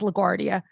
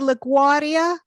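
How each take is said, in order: First: The R sound in the word is pronounced. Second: The R sound in the word is dropped. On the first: This is the usual way to say it. The speaker calls it right. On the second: This is how a family member says it. The speaker calls it wrong.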